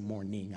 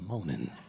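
First: The word is carefully enunciated with the r sound. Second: The word is drawled with the r sound dropped. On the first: The speaker calls it wrong. "I didn't say morning" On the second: The speaker calls it right. "I said moaning. Gotta say it right"

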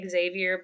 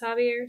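First: The name is pronounced as read in English. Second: The name is pronounced the French way. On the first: The speaker calls it wrong. "when I read it, it reads like Xavier" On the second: The speaker calls it right. "the French pronunciation is Javier"

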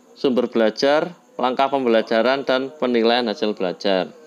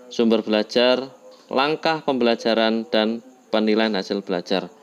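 Both takes have the same delivery.

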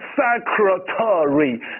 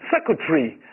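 First: The vowel before the final -ry is clearly pronounced. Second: The vowel before the final -ry is dropped. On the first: "正常的音标我们读成Secretary" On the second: "把A 视为不存在，所以斜体的时候可以不读，我们读成Secretary"

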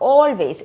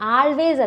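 First: The first vowel is a rounded "aw" sound. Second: The first vowel is an open "ah" sound. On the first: The speaker calls it right. "മിക്കപ്പോഴും നമ്മൾ ഓ എന്നാണ് pronounce ചെയ്യുക" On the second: The speaker calls it wrong. "ആൾവേസ് അല്ല"

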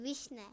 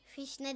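First: The word begins with a v sound. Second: The word begins with an f sound. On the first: The speaker calls it right. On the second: The speaker calls it wrong. "Fişne değil"

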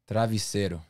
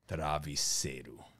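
First: It is said in her usual, higher voice. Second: It is said in a deliberately deeper voice.

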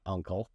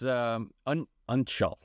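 First: The word starts like 'uncle'. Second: The word does not start like 'uncle'. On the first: The speaker calls it wrong. "not Uncial. It's not your uncle's" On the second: The speaker calls it right. "Uncial script was Uncial"

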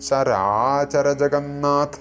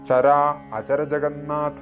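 First: The first word is said smoothly without a break. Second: The first word is split with a break. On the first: The speaker calls it right. "ഇങ്ങനെയാണ് ജപിക്കേണ്ടത്" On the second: The speaker calls it wrong. "അങ്ങനെ ജപിക്കുമ്പോൾ മന്ത്രം മുറിയും"

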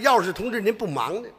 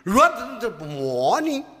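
First: The Chinese is spoken with standard native pronunciation. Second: The Chinese is spoken with a heavy foreign accent. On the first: "翻译。" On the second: "我说的是中国话 外国味儿"

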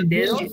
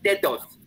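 First: The d sounds are soft, native Spanish style. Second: The d sounds are hard, German accented style. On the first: The speaker calls it right. "como nosotros decimos suavemente" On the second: The speaker calls it wrong. "ellos dicen"

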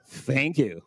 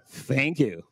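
First: It is said in a mocking, sarcastic way. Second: It is said in a mocking, sarcastic way.

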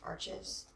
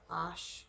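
First: It is said as two syllables, English style. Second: It is said as one syllable, French style. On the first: The speaker calls it wrong. "a lot of people pronounce arches" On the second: The speaker calls it right. "somebody told me it was Osh because it's French"

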